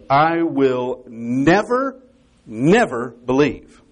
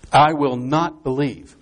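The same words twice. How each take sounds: First: Very slow, stressed "never", pause, "never" once more; emphatic double never. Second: Slow, deliberate weight on "not"; stress on not. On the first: Shown as a demonstration. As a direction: draw out each "never", with a pause between the two. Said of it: "it's a doubling of the negative". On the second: Retold or imitated. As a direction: state it firmly, leaning on "not". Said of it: "that is an emphatic negative".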